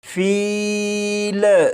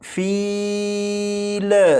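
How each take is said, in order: First: The final L ends with an echoing bounce. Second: The same.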